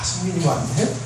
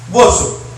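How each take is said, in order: First: It is said in a gentle, friendly tone. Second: It is said in a surly, grumpy tone.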